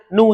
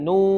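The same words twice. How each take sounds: First: The vowel is short and clipped. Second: The vowel is held long. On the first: The speaker calls it wrong. "bukan boleh bacanya nu saja" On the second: The speaker calls it right. "Kita panjangin"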